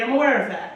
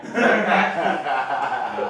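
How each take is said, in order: First: Said in the usual way. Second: Sheepish low laughing echo; lower, slow, laughing repeat. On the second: Shown as a demonstration. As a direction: drop deep and slow on I'm aware of that.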